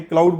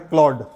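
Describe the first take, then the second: First: क्लाउड with a full 'ow' diphthong, klowd; common misreading. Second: क्लॉड with one open 'aw' vowel, klawd; correct pronunciation. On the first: Teacher quotes a misreading to students, क्लाउड as klowd. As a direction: say क्लाउड like the English word cloud. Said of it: "कि क्लाउड पढ़ते हैं". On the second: Teacher settles the name for students, क्लॉड as klawd. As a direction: say क्लॉड as klawd, no glide to 'ow'. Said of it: "कई लोग इसको क्लाउड भी पढ़ते हैं". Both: Shown as a demonstration.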